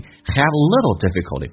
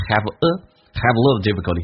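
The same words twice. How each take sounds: First: "Have little" with no "a" between; slow "Have little difficulty", straight from v to l; no article. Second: "have a" with an audible schwa after v; "have a" linked as "hav-uh"; article contrast. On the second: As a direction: set "have a" apart, then say the phrase. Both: Shown as a demonstration. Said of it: "不是have a".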